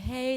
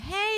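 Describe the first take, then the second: First: The voice is relaxed at a comfortable pitch. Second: The voice is pushed up high and strained. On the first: The speaker calls it right. "that's the quality that you want your voice to have" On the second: The speaker calls it wrong. "go above their optimum pitch level... straining your voice, pushing your voice"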